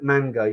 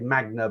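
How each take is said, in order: First: The n comes before the g sound. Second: The g comes before the n sound. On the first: The speaker calls it right. "I think it's called manga" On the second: The speaker calls it wrong. "I always pronounce it wrong. I say magna"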